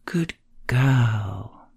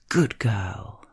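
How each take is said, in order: First: The second word carries the emphasis. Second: The first word is punched out forcefully. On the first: "Emphasis on the second word" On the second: "Sometimes you punch the first word into being"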